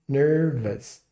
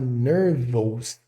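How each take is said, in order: First: The ending is said with a short reduced vowel. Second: The ending is said with a full spelled-out vowel. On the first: The speaker calls it right. "o som vai ser mais nervous" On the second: The speaker calls it wrong. "ao invés de falar nervous com esse O S"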